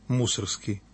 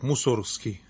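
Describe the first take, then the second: First: The stress is on the first syllable. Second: The stress is on the second syllable. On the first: The speaker calls it right. "Ударение ставлю на «у»" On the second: The speaker calls it wrong. "Сейчас, знаете, модно говорить так"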